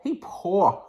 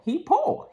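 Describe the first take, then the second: First: Laughing. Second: Emphatic high. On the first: Real, not acted. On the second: Shown as a demonstration. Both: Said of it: "that's what I mean by poor".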